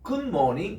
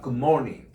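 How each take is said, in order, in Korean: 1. 강세는 good에 있어요. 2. 강세는 morning에 있어요. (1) "good morning 앞에 액센트를 두고 하면 그거는 응답하는 말이에요" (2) "처음 인사한 사람은 morning에 액센트를 줍니다"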